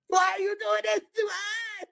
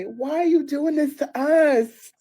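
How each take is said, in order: First: Very high, slow mock-crying squeal; hammed-up distraught wail. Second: Loud, high, slow mock plea; play-acted distraught girlfriend. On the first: Girlfriend overplaying her part on the phone, mock wailing. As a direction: push the fake sob up into a squeak. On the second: Girlfriend playing her part on the phone, mock-distraught. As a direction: drag it out as a theatrical lament. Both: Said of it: "I gotta play the distraught gir".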